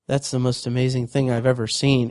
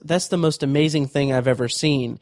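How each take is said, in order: First: It is said dry, flat and emotionless. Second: It is said with some emotion.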